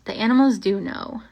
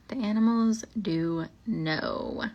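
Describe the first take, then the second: First: Said in the usual way. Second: Drawn out and hushed like a ghost story; slow ominous. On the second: Acted. Repeating the line slowly to spook listeners, ominous. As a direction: let it hang, slow and eerie.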